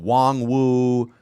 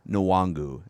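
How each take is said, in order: First: The surname starts with a plain 'w' sound. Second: The surname starts with an 'n' sound. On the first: Another broadcaster said it this way. The speaker calls it wrong. "the whoever the broadcaster was last week was saying Wong Woo" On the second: His college broadcasters said it this way. The speaker calls it right. "It's Kene Nwangu is how you pronounce it"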